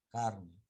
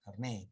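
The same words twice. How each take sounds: First: CARne, with the first syllable stressed. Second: CarNÉ, with the final syllable stressed; stress on last syllable. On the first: Teacher misreading a French loanword, stress on CAR in "carne". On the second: Teacher correcting the French loanword, stress on NÉ in "carné". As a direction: say "carné" leaning on NÉ. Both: Real, not acted. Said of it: "carné, perdón".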